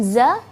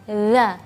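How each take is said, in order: First: The consonant is a plain z, tongue inside. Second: The consonant is dh with the tongue out. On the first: The speaker calls it wrong. "bukan za" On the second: The speaker calls it right. "perhatikan za"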